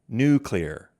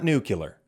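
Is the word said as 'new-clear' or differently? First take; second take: new-clear; differently. First: The word is said as new-clear. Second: The word is not said as new-clear. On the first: The speaker calls it right. "New, new, clear, clear. That's how you say it" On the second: The speaker calls it wrong. "It's not nuclear"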